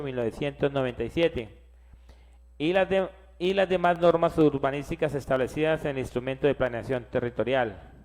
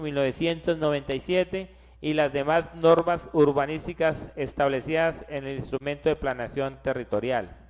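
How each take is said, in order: Both takes have the same delivery.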